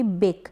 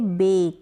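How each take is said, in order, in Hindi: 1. स्वर छोटा है, 'back' जैसा। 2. स्वर लंबा है, 'ay' जैसा। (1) "ना कि" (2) "ए का जो साउंड होगा वो लॉन्ग होगा"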